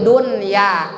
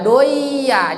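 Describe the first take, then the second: First: The n sound is clearly pronounced before y. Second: The n sound merges into the following y. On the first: The speaker calls it right. "dibacanya diidharkan, namanya idhar mutlak" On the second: The speaker calls it wrong. "jangan dibaca doya, jangan"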